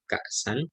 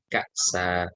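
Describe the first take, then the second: First: The word ends with an n sound. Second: The word ends with a long vowel. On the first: The reading continues without stopping. "Kalau dibaca lengkap" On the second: The reader stops on this word. "kalau diwakafkan"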